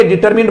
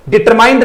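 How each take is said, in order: First: डिटरमिन्ड ending in short "mind" as "minned"; short i in the last syllable of डिटरमिन्ड; correct pronunciation. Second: डिटरमाइंड ending in "mind"; wrong pronunciation. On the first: Teacher correcting students, "-minned" ending. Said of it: "डिटरमिन्ड बोलेंगे". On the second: Teacher showing students what to avoid, "-mind" ending. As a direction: say डिटरमाइंड with a long "eye" in the last syllable. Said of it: "डिटरमाइंड नहीं बोलेंगे". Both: Shown as a demonstration.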